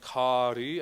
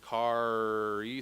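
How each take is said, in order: First: The R is a quick flipped tap. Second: The R is a held retroflex sound. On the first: The speaker calls it right. "flip the R in kari" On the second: The speaker calls it wrong. "See how that starts to make other sounds with your voice that aren't in the word?"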